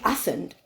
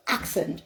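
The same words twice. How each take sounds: First: "accent" pronounced "assent"; accent with silent K. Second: "accent" pronounced "ak-sent"; self-corrected "accent", said "ak-sent"; accent with K sounded. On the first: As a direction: leave the K out of "accent". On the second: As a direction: put the K back into "accent". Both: Shown as a demonstration. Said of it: "with my unique accent".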